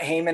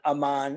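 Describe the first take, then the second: First: The name starts with an audible h sound. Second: The name starts with a vowel, no h. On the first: The speaker calls it wrong. "It's probably not Haman" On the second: The speaker calls it right. "probably the H is probably silent"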